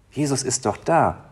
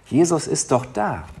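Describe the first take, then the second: No difference in how they are said.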